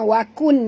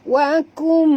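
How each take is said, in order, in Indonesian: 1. Bunyi sengaunya adalah bunyi n yang jelas. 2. Bunyi sengau itu menyatu menjadi bunyi m. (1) "bukan wakun" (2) "tutup mulut ... masukkan bunyi nun ke dalam mim"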